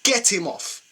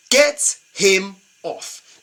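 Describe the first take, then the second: First: Said in the usual way. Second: "Get him off" stretched very slow, each word separate; slow, fed-up insistence on "Get him off"; drawn-out demand. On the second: Shown as a demonstration.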